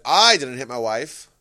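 The stress falls on the word 'I'. Someone else hit the wife. "someone else"

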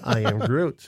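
It is said in a warm, affectionate tone. We are all family and should love each other. "the I Am Groot translation, we are all family, we should love each other, he can be like"

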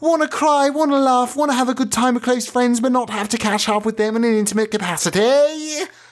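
It is said in a put-on accent.

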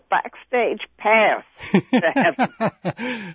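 It is said in an American accent.

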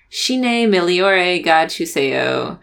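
It is said with a strong American accent.

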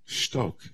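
The word is said gently and quietly. Enter into silence to find understanding. The speaker calls it right. "in a softer tone"

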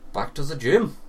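It is spoken in a German accent. "That was German, by the way"

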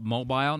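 The word is said with a Canadian pronunciation. "In Canada, they call it mobile"

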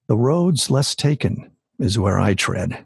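The voice is low and intimate. The speaker calls it right. "if I bring my mic in a little bit closer and I drop my voice"

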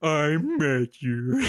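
It is said in a put-on Swedish accent.

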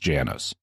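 The name is said the American way.

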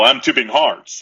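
It is spoken in an American accent. "here's my attempt at an appalling American accent"

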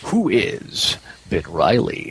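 It is said in a deep, dramatic announcer voice.

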